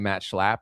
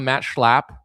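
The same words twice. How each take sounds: First: The final P is short and plain. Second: The final P is drawn out and exaggerated. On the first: The speaker calls it wrong. "You can't just say Matt Schlapp" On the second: The speaker calls it right. "There's a lot of P's in there, so you got to do Schlapp"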